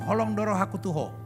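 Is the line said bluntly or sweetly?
bluntly. It is said in a blunt, flat way.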